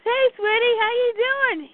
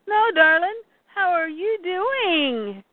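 First: High acted sweet greeting; easy, high-pitched how-are-you; fond greeting. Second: Drawn-out "how are YOU doing", high; insistent acted question, stretching "you doing"; stress on YOU. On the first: Fond check on Ivy. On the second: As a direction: lean slowly on "you". Question repeated with emphasis.

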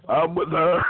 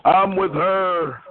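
First: Said in the usual way. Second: Slow, deliberate campaign slogan. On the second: Pretend. Caller mocking the host with a slow, drawn-out slogan. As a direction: drag it out like a rally slogan.

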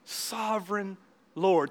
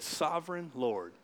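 First: Slow reverent call. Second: Reverent hush. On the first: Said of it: "Think of those words". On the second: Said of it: "you know what he did". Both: Shown as a demonstration.

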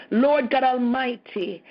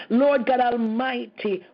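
No difference in how they are said.

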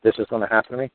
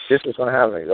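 First: Ends on a rise, quoting it back in disbelief; rising question tune. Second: Ends on a firm fall, flat restatement; falling statement tune. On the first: Quoting the threat back to Bob with a rising tune. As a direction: lift the end like a quoted question. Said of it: "Did you just say". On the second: Restating the threat to Bob with a falling tune. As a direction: drop the end, state it as fact. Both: Retold or imitated.

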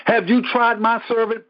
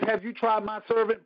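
First: God's challenge, louder and bolder; preacher booming God's boast; louder repeat. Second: Said in the usual way. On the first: Retold or imitated. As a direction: throw the question out with force.

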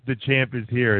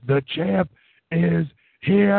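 First: Said in the usual way. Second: Higher, stretched ring-announcer call rising at the end; Justin Roberts announcer. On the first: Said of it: "instead of just". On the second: Retold or imitated. Podcaster imitating a ring announcer calling the champion, stretched and rising. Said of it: "he goes full Justin Roberts".

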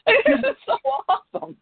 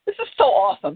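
First: Much higher, gushing with a laugh; playful gush. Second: Said in the usual way. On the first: Real, not acted. Reader gushes over the story, playfully high with laughter. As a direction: squeal it out in fun.

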